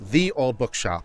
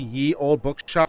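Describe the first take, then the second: First: The first word begins with a th sound. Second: The first word begins with a y sound. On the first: The speaker calls it right. "The way you pronounce it is the" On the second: The speaker calls it wrong. "you're pronouncing it wrong"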